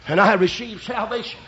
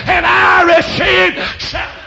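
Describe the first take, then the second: First: Said in the usual way. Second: High, loud preacher's cry; triumphant shout. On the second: Real, not acted. Preacher proclaims his salvation to congregation, triumphant shout. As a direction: shout it as the sermon's climax. Climax of conversion testimony.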